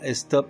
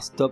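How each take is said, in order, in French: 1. Le mot commence par un son e avant le s. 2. Le mot commence directement par le son s. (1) "on dit" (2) "On ne dit pas"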